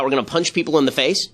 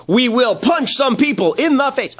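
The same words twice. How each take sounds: First: Said in the usual way. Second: Higher, slow, puffed-up heroic declaration; mock tough actor. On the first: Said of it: "he starts shouting about". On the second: Commentator mocking an actor's awards speech, puffed-up and slow. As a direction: ham up the actor's brave threat. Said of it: "the one that they're cheering where he says".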